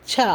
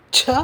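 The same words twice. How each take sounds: First: Plain "cha" with little air on சா; unaspirated சா. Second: Breathy "chha" with a strong puff on ச; ச as an effortful "chha"; aspirated ச. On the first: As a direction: say சா easily, without a puff. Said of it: "குறைந்த காற்றை வைத்து". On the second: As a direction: push extra air out on ச. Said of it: "அதிகமாக காற்றை எடுத்து". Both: Shown as a demonstration.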